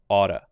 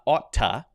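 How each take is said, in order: First: The middle consonant is a light D sound. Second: The middle consonant is a clear T sound. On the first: The speaker calls it right. "changed to a light D sound" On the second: The speaker calls it wrong. "is not oughta"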